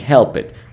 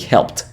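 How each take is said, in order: First: The -ed ending is said as an extra syllable. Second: The -ed ending adds no extra syllable. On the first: The speaker calls it wrong. "Instead of saying help it" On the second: The speaker calls it right. "we say helped"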